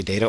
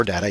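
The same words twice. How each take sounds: First: "data" said DAY-tuh; long A in "data", as in day; DAY-tuh pronunciation. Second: "data" said DAT-uh; short A in "data", as in cat; DAT-uh pronunciation. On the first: Lecturer offering students a choice, "data" as DAY-tuh. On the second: Lecturer offering students a choice, "data" as DAT-uh. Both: Shown as a demonstration. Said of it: "either one's correct".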